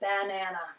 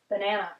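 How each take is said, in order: First: All three vowels are full and equally long. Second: Two of the vowels are shortened to schwa. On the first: "I've given equal emphasis to each of the A's in the word" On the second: "I've shortened the amount of time on two of those vowels"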